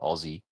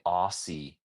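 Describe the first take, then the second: First: The middle consonant is a buzzing Z sound. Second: The middle consonant is a hissing S sound. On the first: "we say Aussie with a Z, like [name]" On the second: This is how Americans say it. "you guys say Aussie with S's"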